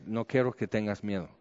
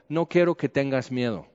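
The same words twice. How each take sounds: First: Much softer, hushed reassurance; soft near-tears. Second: A hint of a gentle father; fatherly reassurance. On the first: Retold or imitated. Recalling God's words while he was crying, hushed and soft. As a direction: let it fall to almost nothing. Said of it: "Estaba llorando". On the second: God speaking to him like a papá, softly reassuring. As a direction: say it like a father calming his son. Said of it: "como un papá".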